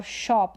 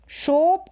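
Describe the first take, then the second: First: शॉप as "shawp"; शॉप with a dropped-jaw vowel; open short o. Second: शोप as "shohp"; शोप with a rounded vowel; long o. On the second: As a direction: say शोप with a closed "oh". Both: Shown as a demonstration. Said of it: "दोनों में फ़र्क है".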